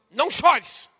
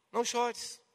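First: Loud, forceful command; stern order. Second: Soft, hushed comfort; gentle consolation. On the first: Preacher showing how Jesus could have commanded the widow, sternly. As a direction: bark it out as an order. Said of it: "Isso é uma ordem". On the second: Jesus comforting the grieving widow, gently. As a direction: say it softly, as solace rather than command. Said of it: "mas é um consolo". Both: Shown as a demonstration.

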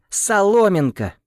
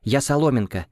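First: Slow, high, loud shout of the name; angry shout. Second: Firm angry correction; angry insistence. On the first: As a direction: yell the name in fury. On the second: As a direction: insist on the name, annoyed. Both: Acted. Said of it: "вспыхнула Соломенко".

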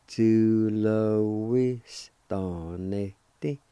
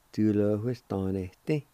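First: Tu lo ves tan este drawn out very slowly; very slow pronunciation. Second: Said in the usual way. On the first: Shown as a demonstration. Teacher modelling the whole word for students, very slowly. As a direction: stretch each syllable so learners catch it. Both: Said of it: "It's pronounced like this".

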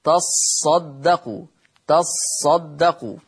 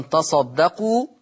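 First: تصدقوا read slowly with the sad doubled and held. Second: Said in the usual way. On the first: Shown as a demonstration. Sheikh showing the doubled sad to his class. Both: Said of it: "تقرأ بتشديد الصاد".

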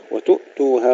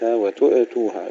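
First: "وتؤتوها" with a clean glottal stop, no echo; still hamza. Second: "وتؤتوها" with an echo vowel after the ء; wrong, bounced hamza. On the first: Teacher shows the correct hamza to pupils, unbounced stop. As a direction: hold the ء shut in "وتؤتوها". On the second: Teacher shows what not to do, hamza with qalqalah. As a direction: pop the ء open in "وتؤتوها". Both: Shown as a demonstration. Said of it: "لا نقلقل لا الخاء ولا الهمزة".

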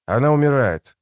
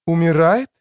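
First: Said in the usual way. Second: УМИРАЕТ lifted high with a rising end; "Умирает" asked back, pitch climbing; questioning echo. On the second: A narrator's reading. Woman echoes it as question.

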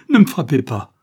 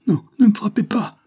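First: Loud, raised desperate plea; frightened cry. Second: Very high, loud pleading; frightened cry. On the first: Child begs not to be beaten, frightened shout. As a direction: shout it in fear, voice falling away. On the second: Child sees stick raised, frightened cry. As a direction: cry out to fend off a blow. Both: A narrator's reading. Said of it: "cria l'enfant effrayé".

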